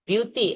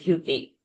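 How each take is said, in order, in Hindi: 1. पहला 'd' बिना साँस के बोला जाता है। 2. पहला 'd' साँस के साथ बोला जाता है। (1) "the Dyuti" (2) "and not Dhyuti"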